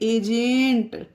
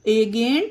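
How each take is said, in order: First: The g is a soft j sound. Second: The g is a hard g sound. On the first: The speaker calls it right. "इसे पढ़ेंगे एजेंट।" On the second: The speaker calls it wrong. "इसे हम एजेंट नहीं पढ़ सकते friends, क्योंकि ये पढ़ना गलत हो जाएगा।"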